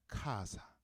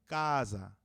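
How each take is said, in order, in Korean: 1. 거센 k 소리와 s 소리가 있어요. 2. 된 k 소리와 z 소리가 있어요. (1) "자기네 영어식 발음인 거" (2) "이태리식으로 읽으면요"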